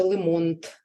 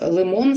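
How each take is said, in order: First: «лимонт» with an extra т at the end; «лимонт» with an added consonant; child's slip. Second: Said in the usual way. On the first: Shown as a demonstration. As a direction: add a т to «лимонт». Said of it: "скаже". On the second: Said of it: "а замість".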